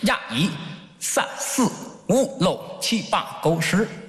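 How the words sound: It is counted in Cantonese.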